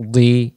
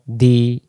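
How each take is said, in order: First: দি heavy, almost "dwi"; rounded di. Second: দি with a light d, mouth spread; wide-mouthed di. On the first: Teacher showing dad with kasra, rounded sound. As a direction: round the lips on দি. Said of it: "গোল করে". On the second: Teacher contrasting dal with dad, wide sound. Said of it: "চওড়া মুখটা". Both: Shown as a demonstration.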